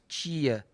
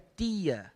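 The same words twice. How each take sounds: First: It is said in a São Paulo accent. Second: It is said in a Northeastern accent.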